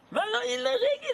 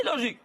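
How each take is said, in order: First: "illogique" cried out very high and fast; "illogique" in a sharp high mocking cry; incredulous exclaim. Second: Said in the usual way. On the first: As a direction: fling "illogique" up high like an absurd idea. Repeating the word in disbelief.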